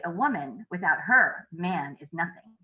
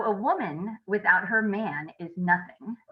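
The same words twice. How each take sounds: First: "her" lifted with a rise, slow with pauses; second reading, new phrasing. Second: Slow, even reading of the sentence; first reading. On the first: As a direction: lean on "her" and pause before "man". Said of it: "how I'm emphasizing the words, where I pause". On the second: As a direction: read it slowly, no special stress. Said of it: "Or I could say it this way". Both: Shown as a demonstration.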